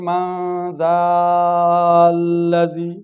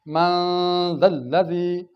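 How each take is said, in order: First: The vowel before the doubled consonant is long. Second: The vowel before the doubled consonant is short. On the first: The speaker calls it wrong. "ये नहीं पढ़ेंगे मन दाल्लजी, ये गलत हो जाएगा" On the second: The speaker calls it right. "इसको हम लंबा नहीं करेंगे"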